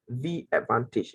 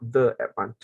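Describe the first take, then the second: First: 'The' is said with a long 'ee' vowel. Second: 'The' is said with a short 'uh' vowel. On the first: The speaker calls it right. "make sure that you pronounce the word the as in the. For example" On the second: The speaker calls it wrong. "It's not"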